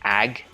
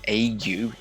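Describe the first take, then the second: First: The word is said as one syllable. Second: The word is said as two syllables. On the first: The speaker calls it wrong. "I thought it was ag or age, thinking like plague" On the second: The speaker calls it right. "It's in that sound at the end of that line"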